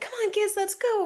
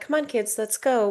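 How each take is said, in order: First: It sounds anxious and rushed. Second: It sounds calm and unhurried.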